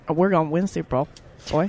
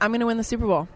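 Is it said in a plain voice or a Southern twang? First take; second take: Southern twang; plain. First: It is said with an Alabama twang. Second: It is said without a Southern twang.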